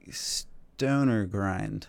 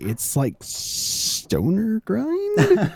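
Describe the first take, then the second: First: Hesitant. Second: Unsure, very slow, rising question; hesitant. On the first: Real, not acted. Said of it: "your hesitation while you're saying that". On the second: Retold or imitated. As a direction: imitate a nervous, doubtful guess. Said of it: "liked your hesitation while you're saying that".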